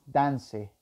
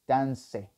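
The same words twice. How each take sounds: The two takes are said the same way.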